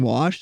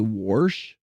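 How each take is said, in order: First: It is said in a plain, neutral accent. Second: It is said in a strong Midwestern accent. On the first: "instead of saying wash" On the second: "they'll say warsh"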